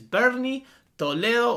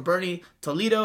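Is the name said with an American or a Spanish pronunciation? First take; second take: Spanish; American. First: The name is said with a Spanish pronunciation. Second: The name is said with an American pronunciation.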